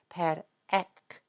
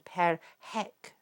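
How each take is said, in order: First: The second word begins directly with a vowel. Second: The second word begins with an h sound. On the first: This is how the scribes actually spoke. "they're not pronouncing the H sound" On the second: This is not how the scribes actually spoke. "they're not saying per hec"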